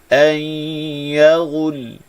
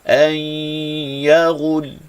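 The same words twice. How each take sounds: The two takes are said the same way.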